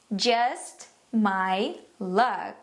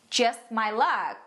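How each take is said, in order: First: Very slow, lower, long pauses; word-by-word model. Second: Slow, dryly ironic example; sarcastic intonation. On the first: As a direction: separate "Just", "my" and "luck" for learners. Phrase broken down for learners. (palavra por palavra, bem devagar) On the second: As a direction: say it slowly as an unlucky person's wry remark. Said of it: "tem que dar essa entonação". (entonação sarcástica, devagar) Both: Shown as a demonstration.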